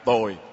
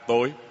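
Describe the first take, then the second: First: The word is said with a low falling tone. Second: The word is said with a high rising tone. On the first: It means bad. "dấu huyền thành ra tồi" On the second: It means dark. "dấu sắc thì thành ra tối"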